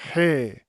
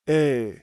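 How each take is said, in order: First: The vowel starts with an h sound. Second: The vowel starts without any h sound. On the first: The vowel carries a rough breathing mark. "it would be pronounced similar to an H sound" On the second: The vowel carries a smooth breathing mark. "you would pronounce it with no H"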